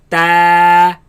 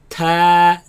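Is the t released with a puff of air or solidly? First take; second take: solidly; puff. First: The t is solid without a puff. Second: The t is spat out with a puff. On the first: The speaker calls it right. "the letter is pronounced as solid sound" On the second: The speaker calls it wrong. "they spit it out like"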